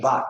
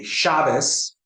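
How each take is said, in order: First: "Shabbat" with a t at the end; end-stressed "Shabbat", crisp final t. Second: "Shabbos" with an s at the end. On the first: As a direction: say sha-BAT, finishing on t. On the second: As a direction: say SHA-bos, finishing on s. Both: Shown as a demonstration.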